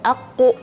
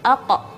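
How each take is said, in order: First: The lips round and push forward on the consonant. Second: The lips stay still on the consonant. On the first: The speaker calls it wrong. "jangan aku" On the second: The speaker calls it right. "tapi ako, ako, tidak boleh bergerak bibir"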